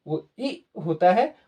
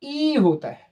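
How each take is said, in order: First: ई kept short and clear. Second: ई held long, higher. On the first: Teacher showing the short ई. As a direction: clip the ई in वो ई होता है. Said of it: "छोटी ई का sound होता है". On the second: Teacher showing the long ई. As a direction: stretch the ई in ई होता है. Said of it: "बड़ी ई का साइन जो होता है". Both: Shown as a demonstration.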